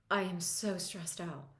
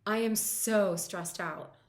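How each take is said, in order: First: Said in the usual way. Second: Slow, loud, pressing every word of I am so stressed out; emphatic demo phrase. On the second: Shown as a demonstration. Coach to client, owning the stress out loud, slow and loud. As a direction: lean hard into so stressed out, drawn out. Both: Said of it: "and say".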